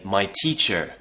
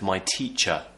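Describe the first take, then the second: First: The final R sound is clearly pronounced. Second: The final R sound is silent. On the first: The speaker calls it wrong. "they might say my teacher" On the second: The speaker calls it right. "instead of"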